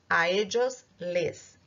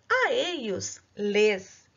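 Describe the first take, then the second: First: It is said with an Argentine accent. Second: It is said with a non-Argentine accent.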